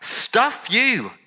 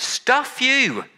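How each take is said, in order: First: High, final stuff you; angry dismissal repeated. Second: Sharp high stuff you; angry dismissal. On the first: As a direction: toss it off in disgust. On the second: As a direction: fling it away in disgust. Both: Retold or imitated. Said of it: "we expect God to say".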